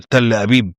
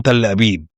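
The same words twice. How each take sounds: First: Understated shocked echo of "تل أبيب"; taken aback, mildly voiced. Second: Said in the usual way. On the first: A narrator's reading. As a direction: say "تل أبيب" as a stunned question, held in. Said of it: "رجب اتصدم وقال". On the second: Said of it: "رد عليه بثقة".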